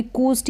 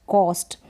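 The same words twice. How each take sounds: First: "कूस्ट" with an oo vowel; wrong vowel. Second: "कॉस्ट" with an open o; correct vowel. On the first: Teacher warning beginners off a wrong reading, "कूस्ट" with oo. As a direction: say "कूस्ट" like koost. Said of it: "ऐसे नहीं पढ़ेंगे". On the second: Teacher reading the word for beginners, "कॉस्ट" with open o. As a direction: say "कॉस्ट" like cost. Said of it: "अब इसको भी". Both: Shown as a demonstration.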